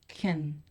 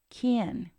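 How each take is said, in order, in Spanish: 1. La palabra no está acentuada y tiene una vocal reducida. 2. La palabra está acentuada con una vocal plena. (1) "can es usualmente no acentuado y pronunciado can" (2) "si este verbo modal está acentuado o stressed, entonces lo vamos a pronunciar como can"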